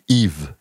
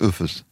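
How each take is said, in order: First: The name is said the French way, as Yves. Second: The name is said with an f sound, as Üffes. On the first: This is the name the parents chose. The speaker calls it right. "Leute nennen ihren Jungen Yves" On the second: Locals cannot manage the foreign name. The speaker calls it wrong. "können das aber nicht aussprechen, sagen Üffes"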